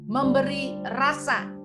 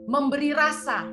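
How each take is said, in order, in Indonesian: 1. Dibaca dengan lambat dan penuh kesengajaan. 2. Dibaca dengan tempo normal, agak cepat.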